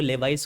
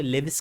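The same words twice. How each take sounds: First: Levi's said "LEE-vize", long final vowel; correct brand pronunciation. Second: Levis said "LEV-iss", short final vowel; common mispronunciation. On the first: Teacher showing students the proper brand name, Levi's ending in "-vize". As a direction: pronounce Levi's with an "eye" sound before the s. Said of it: "और हम गलत बोलते हैं". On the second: Teacher showing how shoppers get it wrong, Levis ending in "-iss". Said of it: "कई लोग Levi's को Levis कहते हैं". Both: Shown as a demonstration.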